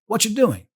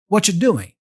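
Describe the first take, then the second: First: The first words blend together into "whatcha". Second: The same.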